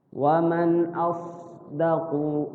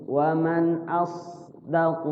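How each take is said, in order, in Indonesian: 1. Bunyi s di 'asdaqu' itu tebal. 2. Bunyi s di 'asdaqu' itu tebal.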